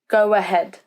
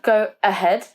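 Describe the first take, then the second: First: A W sound links the two words together. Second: The two words are said without a linking W. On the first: The speaker calls it right. "It's actually a W sound" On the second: The speaker calls it wrong. "Not go ahead"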